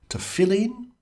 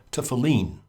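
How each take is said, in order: First: "tefillin" as tuh-FILL-in, pitched up and rising; first pronunciation variant. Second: "tefillin" as tuh-fuh-LEEN, with a falling end; alternative pronunciation. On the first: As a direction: stress the middle FILL in "tefillin". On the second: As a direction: give "tefillin" a long final LEEN. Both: Shown as a demonstration. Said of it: "looking up pronunciations".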